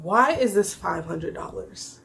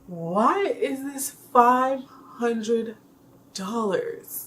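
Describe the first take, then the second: First: Said in the usual way. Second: Slow, drawn-out, incredulous Why is this five hundred dollars; dragged-out exasperated repeat; slow disbelief. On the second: Retold or imitated. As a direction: stretch it out in mock outrage.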